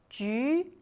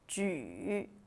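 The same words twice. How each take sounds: First: The pitch rises from mid to high. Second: The pitch dips low, then rises.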